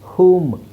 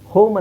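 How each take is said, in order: First: The vowel is a long oo sound. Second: The vowel is an oh sound. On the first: The speaker calls it right. "ಓನ ಊ ಅಂತ ಹೇಳ್ತೀವಿ" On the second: The speaker calls it wrong. "ಹೋಮ್ ಅಂತ ಹೇಳಲ್ಲ"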